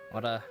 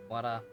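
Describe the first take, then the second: No difference in how they are said.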